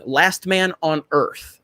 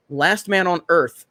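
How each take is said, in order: First: Slow, drawn-out Last Man on Earth, every word spaced; slow, deliberate repeat. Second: Said in the usual way. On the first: Shown as a demonstration. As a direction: say the title slowly so it sticks. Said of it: "First episode". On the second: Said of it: "I'll have to check that out".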